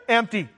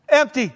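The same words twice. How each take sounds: First: Said in the usual way. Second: Mild mock shock. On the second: Officers finding the prison empty, mild mock shock. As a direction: repeat it with astonished emphasis.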